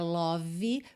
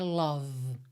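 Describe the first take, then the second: First: A vowel is sounded after the final V. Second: The vowel is a rounded O sound. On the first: "esse E final não é pronunciado" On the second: "o O não tem um som de O, não é love"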